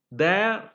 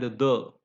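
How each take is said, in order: First: THERE with a full "air" vowel; strong form. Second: THERE reduced to "thuh", written THE; weak form. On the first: Teacher listing word forms, strong form. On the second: Teacher listing word forms, weak form. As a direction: say THE as a short neutral "thuh". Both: Shown as a demonstration. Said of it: "it has a weaker form".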